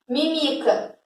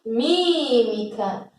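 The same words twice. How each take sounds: First: MÍMICA misstressed as mi-MI-ca; wrong stress. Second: MÍMICA with a long, stressed MÍ; first-syllable stress. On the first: Teacher tests a nonexistent word on students, wrong stress. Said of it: "Existe isso?". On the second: Teacher corrects to the real word, stressed first syllable. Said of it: "Não, existe mímica". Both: Shown as a demonstration.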